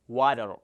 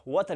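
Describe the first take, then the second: First: "water" drawn out with a flapped d for the t; American-style water. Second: "water" with a crisp, clear t in the middle; water with hard T. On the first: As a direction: say "water" slowly as wa-der. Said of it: "Water inni haala kanaan pronounce godha". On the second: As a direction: pronounce "water" as wa-tar, sounding the t. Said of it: "We can say that water hin jennu". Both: Shown as a demonstration.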